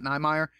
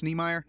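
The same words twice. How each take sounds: First: "Niemeyer" starting like "nigh"; long-I pronunciation. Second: "Niemeyer" starting like "knee"; long-E pronunciation. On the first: Podcaster rejecting the other reading, "Niemeyer" as NYE-myer. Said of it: "so that I'm pronouncing it right". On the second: Podcaster hoping he has the author's name right, "Niemeyer" as NEE-myer. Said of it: "I really, really hope I pronounce". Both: Shown as a demonstration.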